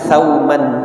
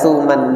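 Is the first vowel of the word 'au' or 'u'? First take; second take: au; u. First: The first syllable has the vowel 'au'. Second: The first syllable has the vowel 'u'. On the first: "bi fathi tha" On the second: "Yang banyak atau masyhur saya lihat pelafalannya itu adalah dengan dengan dhammah"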